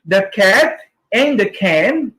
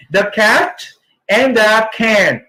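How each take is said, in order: First: Said in the usual way. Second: "The cat" and "the can" with a clear short a and an aspirated k in "can"; careful corrected take. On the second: Shown as a demonstration. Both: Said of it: "Again, may kulang ako".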